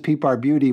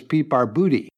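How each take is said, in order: First: The name is said with a 'byoo' sound. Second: The name is said with a 'boo' sound. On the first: This is how the name is commonly said now. "everybody says" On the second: This is the family's original pronunciation. "originally it was"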